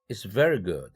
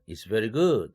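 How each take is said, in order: First: The stress is on very. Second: The stress is on good.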